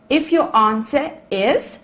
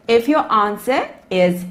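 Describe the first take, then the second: No difference in how they are said.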